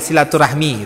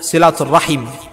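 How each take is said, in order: First: The word ends with the sounds 'rahmi'. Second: The word ends with the sounds 'rahim'. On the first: This is the everyday local form. The speaker calls it wrong. "Silaturahmi itu bahasa kita ya, silaturahmi gitu" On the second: This is the original Arabic form. The speaker calls it right. "Bahasa Arabnya silatul silaturrahim"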